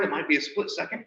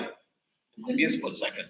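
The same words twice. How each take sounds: First: Said in the usual way. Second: Whispered aside. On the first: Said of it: "Yep, it might be a split second". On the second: Shown as a demonstration. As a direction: whisper it, softer, almost no voice.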